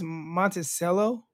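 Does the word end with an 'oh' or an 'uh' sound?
oh. The word ends with an 'oh' sound. This is the official pronunciation. "They say it's pronounced Monticello"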